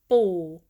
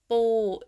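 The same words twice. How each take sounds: First: The pitch starts mid and dips down. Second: The pitch stays level at mid height. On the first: It means grandpa. "The low tone is Bu as a grandpa" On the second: It means crab. "Bu is a middle tone"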